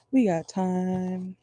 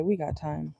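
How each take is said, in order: First: Slow drawn-out reassurance. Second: Said in the usual way. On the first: Shown as a demonstration. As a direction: stretch out "We got time" slowly. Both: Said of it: "said twice, second drawn out".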